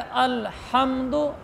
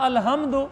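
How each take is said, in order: First: The h is a harsh sound from mid-throat. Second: The h is a plain, light breathy sound. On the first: Praise belongs to God. The speaker calls it right. "इसको हम पढ़ेंगे अल्हम्दु" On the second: The meaning changes to something disrespectful. The speaker calls it wrong. "अगर इसको हे हाथी वाला पढ़ा"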